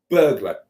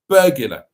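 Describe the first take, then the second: First: No vowel sounds between G and L. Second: An extra vowel sounds between G and L. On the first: "doesn't have a U in it, and it's actually burglar" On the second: "the other one I always got, and I still don't accept this"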